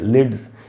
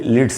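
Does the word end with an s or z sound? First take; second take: z; s. First: The word ends with a z sound. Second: The word ends with an s sound. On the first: The speaker calls it right. "उससे ज पढ़ेंगे" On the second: The speaker calls it wrong. "इसको भी लिड्स नहीं बोलना चाहिए"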